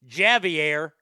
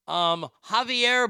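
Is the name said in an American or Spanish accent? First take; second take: American; Spanish. First: The name is said with an American pronunciation. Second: The name is said with a Spanish pronunciation.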